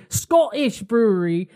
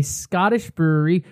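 First: Put-on higher, botched Scottish accent; attempted Scottish accent. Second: Said in the usual way. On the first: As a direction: have a bad go at Scottish, drifting towards British. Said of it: "That might have been British".

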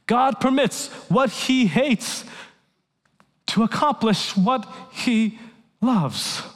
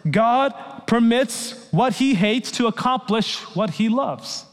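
First: God permits what he hates said slowly, leaning on "what"; slow stress on what. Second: Said in the usual way. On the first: Shown as a demonstration. Preacher repeating the ten words slowly, stressing "what". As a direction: stretch it out and press "what" each time. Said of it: "repeated after the quote". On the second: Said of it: "and here are the ten words".

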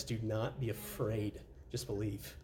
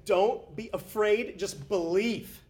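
First: Slow, soft and lower; gentle reassurance. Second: Very slow and higher, each word stressed; slow emphatic. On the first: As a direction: say it tenderly, almost hushed. Jesus's words, soft gentle. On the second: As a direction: lean into every word, slowly. Jesus's words, slow emphatic. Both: Acted.

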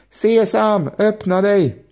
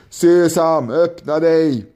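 First: High, eager shout of the magic words. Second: A commanding call to the mountain, a bit louder. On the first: Ali Baba copying the leader, shouting higher at the mountain. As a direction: Ali Baba trying the spell, calling up high. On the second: Robber leader commanding the mountain to open, a firm call. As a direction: robber leader calling out the magic words. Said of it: "ropade han". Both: A narrator's reading.

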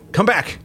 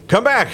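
The two takes are said the same way.

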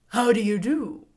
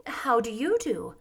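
First: Lightly voiced husky straw man; husky scarecrow. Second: Politely voiced girl's greeting. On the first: Scarecrow politely greeting the girl, husky. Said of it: "in a rather husky voice". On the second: Girl returning the scarecrow's greeting, polite. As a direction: ask it with simple courtesy. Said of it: "replied Dorothy politely". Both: A narrator's reading.

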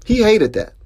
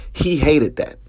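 First: HE hated that, jumping up high in pitch; emphatic repeat. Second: Said in the usual way. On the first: Shown as a demonstration. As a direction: hit "He" high and hard on the repeat.

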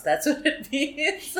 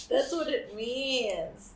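First: Laughing. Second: Said in the usual way. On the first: Real, not acted. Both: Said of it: "It's naughty".

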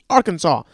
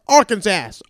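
First: "Arkansas" called out with a final "saw" sound; yelled Arkansas. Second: Higher, louder "Arkansas", ending like "sass"; yelled Arkansas. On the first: Telling listeners what to yell in the car, called out with "Arkansas" ending in "saw". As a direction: call "Arkansas", silent final s. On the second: Telling listeners what to yell in the car, yelled with "Arkansas" rhyming with "sass". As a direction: yell "Arkansas" with a final "ass" sound. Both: Pretend. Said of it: "just start yelling in your car".

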